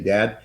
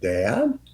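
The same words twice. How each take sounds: First: It is flat and mechanical. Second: It rises like a question.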